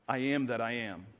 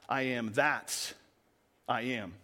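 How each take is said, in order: First: The word 'that' carries no special stress. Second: The word 'that' carries strong stress. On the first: God simply names himself as the one who exists. "Some translations say" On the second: God is the one original God, not one of many. "Or if you change the emphasis on that"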